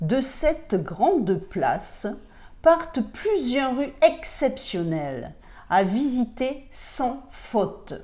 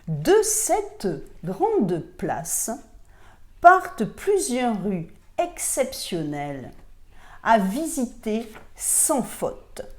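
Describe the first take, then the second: First: It is read at a normal speed. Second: It is read more slowly.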